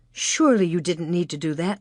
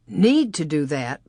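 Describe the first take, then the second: First: Said in the usual way. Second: Slow incredulous echo with Need leaned on hard; stress on Need. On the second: Acted. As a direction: drag out "Need to do that?" and hit Need. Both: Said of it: "Pa repeated".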